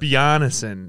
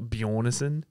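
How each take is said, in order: First: The surname is said as Bjarnason. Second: The surname is said as Bjornson. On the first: The speaker calls it right. "Bjarnason, not Bjornson" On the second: The speaker calls it wrong. "not Bjornson. He's not fucking Swedish"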